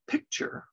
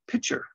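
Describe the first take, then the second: First: A K sound is heard before the T. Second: No K sound is heard before the T. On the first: "when I say the word um, picture" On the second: "I often say pitcher, as in a pitcher of water"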